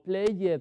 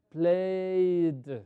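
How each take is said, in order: First: The ending is said as a full ed syllable. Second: The ending is said as a plain d sound. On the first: The speaker calls it wrong. "o played" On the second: The speaker calls it right. "Este sonido lo vamos a reemplazar por una D"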